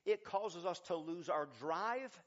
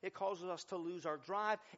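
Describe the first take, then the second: First: It is spoken at a noticeably slower pace. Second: It is spoken at a normal, quicker pace.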